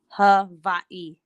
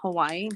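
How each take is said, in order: First: It is said the way local people say it. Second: It is said the way a newcomer says it. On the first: The speaker calls it right. "but it's Hawaii. That's how you say it" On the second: The speaker calls it wrong. "I was saying Hawaii"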